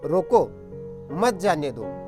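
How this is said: There is a pause right after roko.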